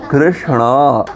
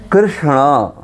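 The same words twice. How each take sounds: The two takes are said the same way.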